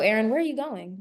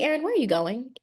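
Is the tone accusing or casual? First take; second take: accusing; casual. First: It sounds suspicious and accusing. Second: It sounds light and casually curious.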